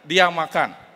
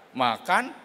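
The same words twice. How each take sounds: First: Said in the usual way. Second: "Makan" dipping then rising as a question; interrogative intonation. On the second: Shown as a demonstration. Speaker B queries speaker A's statement, "Makan" with falling-rising question tune. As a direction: ask "Makan", pitch falling then climbing. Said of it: "Intonasi interrogatif".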